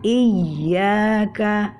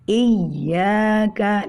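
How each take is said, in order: The two takes are said the same way.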